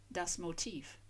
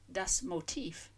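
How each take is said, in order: First: Das Motiv repeated softly, ending in an F; soft German pronunciation. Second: Das Motiv said slowly, final v as F, stress on tiv; slow German pronunciation. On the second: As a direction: draw out das Motiv, ending in a crisp F. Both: Shown as a demonstration. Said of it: "stress on the second syllable".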